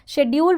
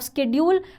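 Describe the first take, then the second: First: The word is said in a British way. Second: The word is said in an American way. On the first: "which is U K" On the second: "which is U S"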